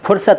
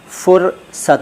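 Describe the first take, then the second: First: The first sound is an aspirated p. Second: The first sound is an f. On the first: The speaker calls it wrong. "फुर्सत नहीं" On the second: The speaker calls it right. "देखिए फ इस तरह बोलते हैं"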